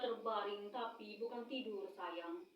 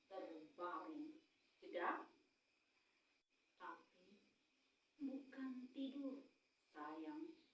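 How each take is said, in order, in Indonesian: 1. Langsung mengalir tanpa jeda. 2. Ada jeda setelah 'terbaring'. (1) "itu kan satu kalimat kita babat habis ya" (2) "Ambil jeda"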